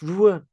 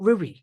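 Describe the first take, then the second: First: The name ends in an 'ah' sound. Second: The name ends in an 'ee' sound. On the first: The speaker calls it right. "It's Rua Life Sciences" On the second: The speaker calls it wrong. "It's not Rui"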